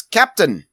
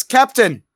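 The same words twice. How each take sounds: First: Accidental put-on accent, raised pitch; Chief Moon. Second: High, loud pipe-up; Chief Moon. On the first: Chief Moon piping up to the captain, mistaken accent. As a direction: pipe up high with a put-on accent. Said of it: "I don't know why I gave him an accent". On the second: Acted. Chief Moon redoing his alert to the captain, high and loud. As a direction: pipe up much higher and louder. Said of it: "Pipes up and says".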